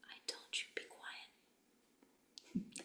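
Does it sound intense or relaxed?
relaxed. It is said in a relaxed, slack way.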